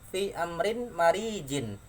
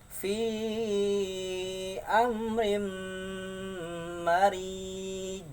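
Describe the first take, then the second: First: The phrase ends with a full final syllable. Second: It ends on a stopped, strongly bouncing j. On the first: "Lagi lafaz fi amrin marijin" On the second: "Cara bacanya fi amrim marij. Rij. Ya, besar memantul"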